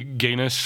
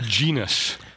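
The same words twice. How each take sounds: First: The word begins with a hard G sound. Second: The word begins with a J sound. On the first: This is likely how Latin said it. "it's probably genus" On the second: This is the everyday American way to say it. "we're going to go with the J sound"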